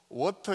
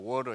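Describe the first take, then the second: First: The middle consonant is a clear t sound. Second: The middle consonant is a soft flap. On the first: Americans would not understand it. The speaker calls it wrong. "미국에서는 워터 이래 가지고 못 알아듣죠" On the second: This is how it is said in America. The speaker calls it right. "워러 이래야 되죠"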